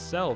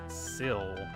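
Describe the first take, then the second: First: The name rhymes with the word bell. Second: The name rhymes with the word hill. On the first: The speaker calls it wrong. "it's not pronounced Cell" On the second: The speaker calls it right. "It's actually Sill, like silhouette"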